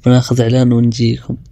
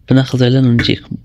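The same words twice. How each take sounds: First: Said in the usual way. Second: Rattled off fast; fast ad-break tease; quick ad break line. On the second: Shown as a demonstration. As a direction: rush through the ad announcement.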